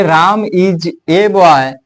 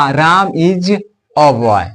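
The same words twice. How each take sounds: First: Put-on slow राम is a boy with "a" as ए, "ay". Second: Put-on राम is a boy with "a" as a short अ, "uh". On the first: Teacher reads slowly to students, "a" as ए. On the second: Teacher reads for students, "a" as short अ. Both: Shown as a demonstration. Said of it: "ए भी पढ़ सकते हैं और अ भी पढ़ सकते हैं".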